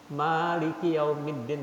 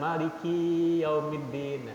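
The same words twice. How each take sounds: First: The vowel in the first syllable ma is held long. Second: The vowel in the syllable ki is held long. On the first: The speaker calls it right. "Malik yang panjang ma-nya" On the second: The speaker calls it wrong. "Jangan ki-nya yang dibaca tadi"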